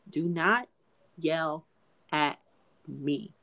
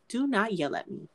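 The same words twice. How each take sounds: First: "Do not ... yell ... at ... me", a pause between words; word-by-word warning. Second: Said in the usual way. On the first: Real, not acted. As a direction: break "yell", "at", "me" apart, dropping softer. Repeats rule word by word.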